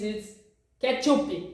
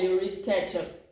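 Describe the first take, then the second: First: The word is said with Portuguese pronunciation. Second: The word is said with English pronunciation. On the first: The speaker calls it right. "In Portuguese, it's ketchup" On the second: The speaker calls it wrong. "you read wrongly"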